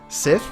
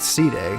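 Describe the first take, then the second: First: The name is said as one syllable, sith. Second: The name is said with two syllables, see-day. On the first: The speaker calls it right. "That's how you pronounce it, like Sith" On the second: The speaker calls it wrong. "It's not C Day"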